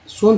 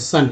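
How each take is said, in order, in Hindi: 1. स्वर 'oh' जैसा है। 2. स्वर 'uh' जैसा है। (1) "सोन थोड़ी पढ़ते" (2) "यानी ओ को आ पढ़ रहे हैं"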